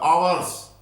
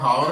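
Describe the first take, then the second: First: The word begins with a vowel sound. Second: The word begins with an h sound. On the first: The speaker calls it right. "ये आवर्स बोला जाता भाई" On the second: The speaker calls it wrong. "हावर नहीं होता"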